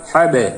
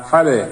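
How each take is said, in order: Both takes have the same delivery.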